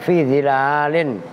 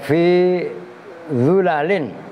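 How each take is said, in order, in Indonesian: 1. Vokal pertama adalah i; yang kedua panjang. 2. Vokal pertama adalah u; yang kedua pendek. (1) "kan panjang begitu" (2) "bi dhammiz dha'i ... min ghairi alifin"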